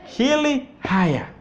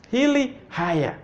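First: Hili haya said slowly, each word spelt out clearly; slow drill. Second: Said in the usual way. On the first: Shown as a demonstration. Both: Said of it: "You see that?".

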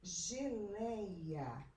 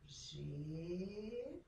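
First: Said in the usual way. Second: "Geleia" split as ge, lei, a; syllable by syllable. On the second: Shown as a demonstration. Teacher separates the word for pupils, "Geleia" syllable by syllable. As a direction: draw out "Geleia" with long pauses. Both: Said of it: "as palavras em sílabas".

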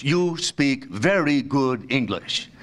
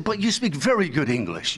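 First: Much slower, each word measured out; slow, patronizing repeat. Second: Said in the usual way. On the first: Retold or imitated. Man praising a supposed foreigner's English, slowly and deliberately. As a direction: spell it out slowly for a non-native speaker.

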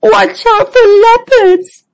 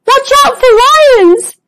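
First: High whimpered warning; a scared little zebra whimpering. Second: High-pitched, anxious cry of warning; a nervous little zebra sounding the alarm. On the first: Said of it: "whimpered Zoe". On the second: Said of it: "looking around anxiously". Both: Acted.

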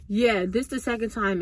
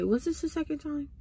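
First: Said in the usual way. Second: Higher, softer question to oneself; questioning aside. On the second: Real, not acted. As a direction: check it with yourself, pitched up and quieter. Asks herself, then answers.

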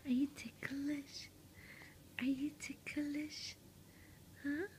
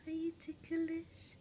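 First: Hushed teasing question, a bit slow; teasing whisper. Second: Said in the usual way. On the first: Real, not acted. Mother teasing her baby in a hushed whisper. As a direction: whisper it like you're about to tickle.

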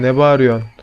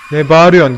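First: Said in the usual way. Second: Angry yell. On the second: Real, not acted. Yelling back at the monster.

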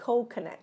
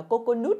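First: Coconut as "KOH-kuh-nut"; correct model pronunciation. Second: Coconut read as Vietnamese "cô-cô-nút"; mispronounced coconut. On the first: Teacher models the right way for learners, correct coconut. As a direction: say coconut in English, reduced middle vowel. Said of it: "Đừng đọc là coconut". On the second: Teacher warns learners off misreading, mispronounced coconut. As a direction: say coconut wrongly, with full "o" and "oo" vowels. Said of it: "Đừng đọc là coconut mọi người nha". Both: Shown as a demonstration.

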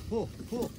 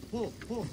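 The two takes are said the same way.

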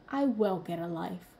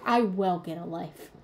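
First: Lower, quiet sassy retort; sassy comeback. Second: Sassy comeback. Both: Retold or imitated. To her partner after he said get a life, a sassy retort. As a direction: toss it back with a little sass. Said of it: "my inner child's little sassy remark".

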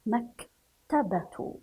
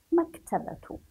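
First: Slow "مكتبة" with a pause after mak; broken into parts. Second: "مكتبة" as one unbroken word, higher; joined up. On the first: Teacher sounds out a word for pupils, "مكتبة" slowly in two parts. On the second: Teacher reads the whole word to pupils, "مكتبة" joined up. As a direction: run "maktabatu" together in "مكتبة" without a pause. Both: Shown as a demonstration.

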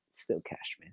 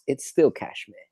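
First: Muttered half to himself; quiet aside. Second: Said in the usual way. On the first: Real, not acted. Murmuring his outfit remark again to the chat, much softer. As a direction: echo the line under his breath, much softer.

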